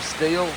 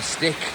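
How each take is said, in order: First: It has a long ee vowel, like steel. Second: It ends with a k sound, like stick. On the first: This is how Americans say it. "Americans call them steel" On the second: This is how people locally say it. "here they call them stick"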